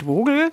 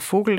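First: The word is said a different, non-traditional way. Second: The word is said the traditional German way. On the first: The speaker calls it wrong. "und nicht Vogel" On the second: The speaker calls it right. "es heißt ja auch Vogel"

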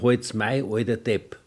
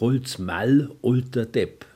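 First: The L after the vowel is dropped. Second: The L after the vowel is clearly pronounced. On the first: "Südlich der Donau würde es heißen" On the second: "hier in der Oberpfalz heißt es ... Weil es L drin ist"

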